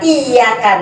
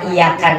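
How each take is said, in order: First: The y sound is held long and doubled. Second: The y sound is short and single. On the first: Only to you, God, we pray. The speaker calls it right. "Tapi kalau ada tasdidnya" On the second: To the sun we pray. The speaker calls it wrong. "hilang tasdidnya satu berubah arti"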